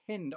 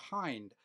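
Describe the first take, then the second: First: "Hind" with a short i, as in "hint"; short-i pronunciation. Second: "Hind" with a long i, rhyming with "kind"; long-i pronunciation. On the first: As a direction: say "Hind" with the vowel of "pin". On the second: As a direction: say "Hind" with the vowel of "eye". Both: Shown as a demonstration. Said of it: "Is that how you pronounce it?".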